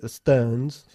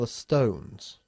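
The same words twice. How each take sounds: First: The vowel in stones is flat and unrounded. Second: The vowel in stones is a rounded oh. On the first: The speaker calls it wrong. "no se dice the stones" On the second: The speaker calls it right. "Hace un O precioso, una oval in vertical increíble"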